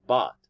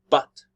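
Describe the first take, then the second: First: The vowel is a reduced schwa. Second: The vowel is full and stressed. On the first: "in the weak form, usually we use schwa sound" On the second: "a strong form if we give emphasis"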